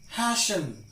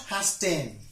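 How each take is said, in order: First: The T is silent in this word. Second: The T is sounded in this word. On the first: The speaker calls it right. "it's silent in these words" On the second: The speaker calls it wrong. "not hasten"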